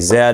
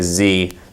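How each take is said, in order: First: It is said the Canadian way, zed. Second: It is said the American way, zee.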